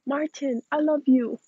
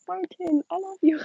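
First: Said in the usual way. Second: Second take pitched up high, sing-song; higher cute repeat. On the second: Shown as a demonstration. Chat asks again, she repeats it pitched high. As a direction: lift it way up and make it sweet. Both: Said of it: "Can you say".

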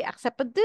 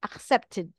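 First: "accepted" without its "tid" syllable, roughly "ak-sep-ud"; wrong -ed ending. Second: "accepted" in three syllables, ending in a clear "tid"; extra -ed syllable. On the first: Teacher shows learners what not to say, "accepted" mispronounced without the "tid" ending. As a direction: say "accepted" wrongly, the final -ed squashed into a bare d. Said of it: "You will not say". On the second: Teacher corrects the mistake, "accepted" with a full "tid" syllable at the end. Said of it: "The ed adds an extra syllable". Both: Shown as a demonstration.

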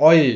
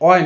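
First: "অয়ে" opened out to a final "e"; correct ending. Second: "অয়" closed like "oy"; wrong ending. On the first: ("অয়ে", শেষে এ ধ্বনি রেখে) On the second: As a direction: stop "অয়" short of any final "e". ("অয়", শেষে এ না বলে) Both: Shown as a demonstration. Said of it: "অয় না, অয়ে".

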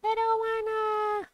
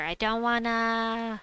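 First: High, slow whiny complaint. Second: Whiny. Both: Real, not acted. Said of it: "I have to do Drake Rider".

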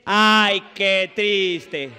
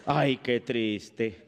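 First: Loud, drawn-out mock lament; exaggerated pity. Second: Very slow, low mock lament; mock sorrow. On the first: Shown as a demonstration. Comedian coaches audience to pity the napkin, exaggerated lament. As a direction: demonstrate it big for the crowd. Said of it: "ustedes tienen que decir". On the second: Comedian pities the discarded napkin, mock sorrowful. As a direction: sigh it out low and drawn-out. Models mock pity for audience.

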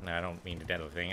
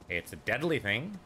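First: Said in the usual way. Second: Lilting, teasing suggestion that swings up; mock-innocent reply. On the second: Answering the player's "Is that a thing?", mock-innocent. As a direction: lightly voice someone offering an unhelpful answer. Voices an imagined reply to himself.

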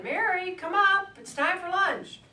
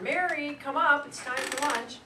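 First: High, loud call from a window; louder yelled call. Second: Raised, louder calling-out voice; yelling down. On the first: Mother calls her daughter a second time from the window, yelling. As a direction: holler much higher and louder to a child in the street. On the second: Woman calls her daughter in for lunch, yelling down. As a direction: sing out higher and louder, as if from an upstairs window. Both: Retold or imitated. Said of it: "this woman yelled down".

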